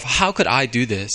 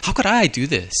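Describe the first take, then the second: First: Said in the usual way. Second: Raised pitch, pleading with himself; anguished self-reproach. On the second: Retold or imitated. Preacher acting out his shame before God, anguished. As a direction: ask it as if appalled at your own failure.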